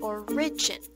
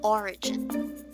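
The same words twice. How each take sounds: First: The stress is on the second syllable. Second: The stress is on the first syllable. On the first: The speaker calls it wrong. "Shouldn't be saying origin" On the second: The speaker calls it right. "the correct one should be origin. So the stress is on the first syllable again"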